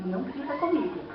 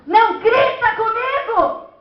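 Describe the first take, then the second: First: Much softer, held-back retort. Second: Loud, high, drawn-out scolding shout; parent yelling. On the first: Preacher replaying the parent-child quarrel, a quiet retort. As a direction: keep it down, no shouting. Acted retort, set against the shout. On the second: Parent shouting at a child not to shout, loud and high. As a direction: yell it at full height, slowly. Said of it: "Não grite comigo nessa altura". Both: Acted.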